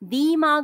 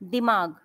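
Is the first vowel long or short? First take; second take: long; short. First: The first vowel is drawn out long. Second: The first vowel is clipped short and quick. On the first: The speaker calls it wrong. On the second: The speaker calls it right.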